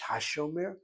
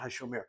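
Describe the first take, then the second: First: The pitch rises like a question. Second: The pitch stays flat like a statement. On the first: It asks whether he is the keeper. The speaker calls it right. "Raise your voice" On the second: It states that he is the keeper. The speaker calls it wrong. "it's not Hashomer"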